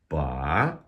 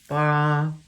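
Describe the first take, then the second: First: The pitch rises from middle to high. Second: The pitch stays high and level. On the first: "Second tone, which is a rising tone" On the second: "That would be first tone. That's that high flat tone"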